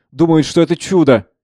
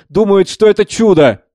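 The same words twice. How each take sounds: First: Mildly incredulous exclamation. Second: Higher-pitched, mock-amused exclamation; laughing mockery. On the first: Acted. Savva tells Speransky of the fools, mildly incredulous. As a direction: scoff at their belief. First take, before laughing. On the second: Savva mocks the believers to Speransky, derisively amused. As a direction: repeat it with rising derision. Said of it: "Смеётся".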